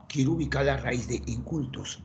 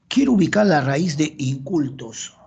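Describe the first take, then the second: First: Much softer echo of the task; soft repeat. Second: Louder task read out to the class; loud announcement. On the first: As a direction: repeat it quietly to yourself. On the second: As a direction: call the exercise out loudly. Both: Shown as a demonstration. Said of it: "repeats the task".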